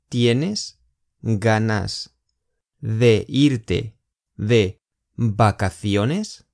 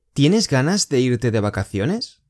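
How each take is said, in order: First: Very slow, chunk by chunk; slow split question. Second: Said in the usual way. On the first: Shown as a demonstration. Teacher to students, slow chunked question. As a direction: lay out each piece slowly for learners. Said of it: "teacher splits question slowly". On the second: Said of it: "first normal take".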